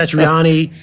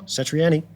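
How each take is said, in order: First: Satriani with an "AH-nee" ending; common pronunciation. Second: Satriani with a flat-A "ANN-ee" ending; guitarist's own pronunciation. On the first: Showing how everyone says the guitarist's name, Satriani with "AH". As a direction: say Satriani as "sat-ree-AH-nee". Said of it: "everyone says Sat-, [name]". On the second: Showing how the guitarist says his own name, Satriani with "ANN". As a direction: say Satriani as "sat-ree-ANN-ee". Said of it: "listen to him and [name]". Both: Shown as a demonstration.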